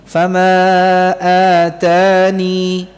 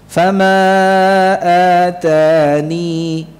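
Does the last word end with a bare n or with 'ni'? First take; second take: ni; ni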